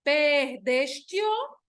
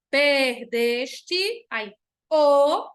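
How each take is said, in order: First: Slow "perdeste-o" ending in one syllable, tio; final vowels joined. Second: "Perdeste" in syllables, then a separate loud "o"; vowels kept apart. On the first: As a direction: merge the "te" and "o" of "perdeste-o". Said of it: "Não, vai ficar". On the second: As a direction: detach the final "o" from "Perdeste" with a pause. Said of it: "Eu não vou bo-, dividir". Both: Shown as a demonstration.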